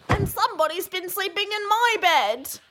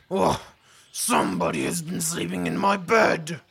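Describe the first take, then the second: First: It is said in a whining, complaining voice. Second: It is said in a big, deep, growly voice.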